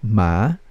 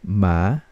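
Both takes have the same delivery.

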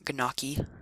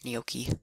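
First: Every letter of the word is sounded literally. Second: The word is said the standard Italian way. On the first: The speaker calls it wrong. "not gnocchi. Like it looks" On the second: The speaker calls it right. "that's how you say it"

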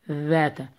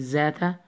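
First: The word starts with a th sound. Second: The word starts with a buzzing z sound. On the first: The speaker calls it right. "It must sound like th in English" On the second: The speaker calls it wrong. "don't say zata"

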